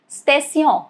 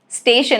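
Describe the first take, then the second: First: It is pronounced as a French word. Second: It is pronounced as an English word. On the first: "That is French for station" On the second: "a very simple English word"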